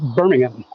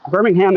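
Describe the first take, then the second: First: The name is said in a British way. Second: The name is said in an American way.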